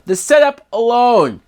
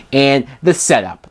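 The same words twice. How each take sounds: First: Setup punched, pitched much higher and falling; stress on setup. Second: Said in the usual way. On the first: Real, not acted. Reviewer mocking the film's premise, stress on setup. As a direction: hit setup hard and high, then drop.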